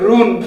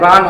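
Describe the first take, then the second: First: The vowel is a rounded oo sound. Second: The vowel is an open uh sound. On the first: The speaker calls it wrong. "আমরা অনেক সময় এটাকে বলি রুন, এটা কি আসলে রুন?" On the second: The speaker calls it right. "এটা রান হবে।"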